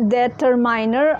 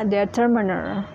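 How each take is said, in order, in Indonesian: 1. Huruf i di tengah bunyinya seperti 'eye'. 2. Huruf i di tengah bunyinya seperti 'ih' pendek. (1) "Selama ini saya nyebutnya" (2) "pelafalannya yang benar"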